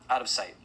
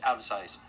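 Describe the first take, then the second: First: Louder, urgent repeat; louder echo. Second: Said in the usual way. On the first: Acted. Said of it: "repeated, louder with a cry". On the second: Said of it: "out of sight repeated".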